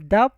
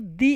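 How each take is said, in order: First: The word is pronounced with a short uh vowel. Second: The word is pronounced with a long ee vowel. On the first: The next word begins with a consonant sound. "मैंने द French pronounce किया है" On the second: The next word begins with a vowel sound. "इसलिए मैंने इसको दी English pronounce किया है"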